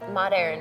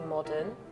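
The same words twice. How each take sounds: First: It is said in a Californian American accent. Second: It is said in a British accent.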